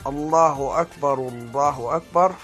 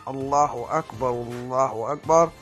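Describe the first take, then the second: The two takes are said the same way.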